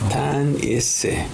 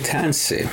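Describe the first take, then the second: First: The word is said in full, three syllables. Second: The word is shortened to two syllables. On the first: This is the old, formal way of speaking. "our people say tanisi" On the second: This is the newer, everyday way of speaking. "when I say tansi"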